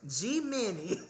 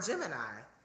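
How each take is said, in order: First: It is split into a letter G and Minnie. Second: It is said as the single word Gemini. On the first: The speaker calls it wrong. "why did I read that as G Minnie" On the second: The speaker calls it right. "I didn't even read that as Gemini"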